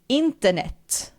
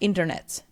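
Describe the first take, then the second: First: It is said with a Swedish pronunciation. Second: It is said with an English pronunciation. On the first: "in Swedish we would pronounce it like internet" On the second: "instead of internet"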